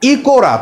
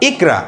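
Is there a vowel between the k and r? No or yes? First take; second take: yes; no. First: An o vowel is sounded between k and r. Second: The k runs straight into r with no vowel. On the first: The speaker calls it wrong. "এর উচ্চারণটা হয়ে যায় ইকোরা" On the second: The speaker calls it right. "সেই আসল উচ্চারণ আমরা করতে পারি যে ইকরা"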